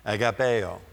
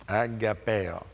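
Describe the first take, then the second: First: Said in the usual way. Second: "Agapeo" with a playful Italian accent. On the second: Shown as a demonstration. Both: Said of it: "Italian accent".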